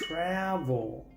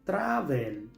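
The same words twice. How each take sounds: First: The E in the last syllable is silent. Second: The E in the last syllable is pronounced. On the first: The speaker calls it right. "la E es muda" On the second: The speaker calls it wrong. "esta palabra no se pronuncia travel"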